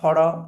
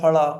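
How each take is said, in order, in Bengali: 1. শব্দটি ডি-র মতো ধ্বনিতে শেষ হয়। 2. শব্দটি এল-এর মতো ধ্বনিতে শেষ হয়।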